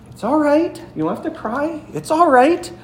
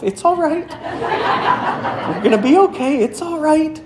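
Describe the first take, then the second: First: High, gentle comforting sing-song; calm a frightened child in the storm; older sister reassuring her crying sister; soothing little sister. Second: High, laughing, half-scared comfort; child whispering courage to herself in the dark; nervous self-reassurance. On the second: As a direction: talk yourself out of panic. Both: Retold or imitated.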